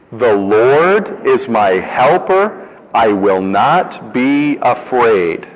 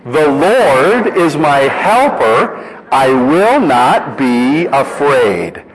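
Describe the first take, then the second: First: Slow, deliberate recitation, word by word; slow recitation together. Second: Slow, louder and higher bold declaration; with confidence. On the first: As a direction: lead the congregation through it slowly. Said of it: "let's practice it together". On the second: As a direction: proclaim it boldly, every word. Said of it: "this time with the confidence". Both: Shown as a demonstration.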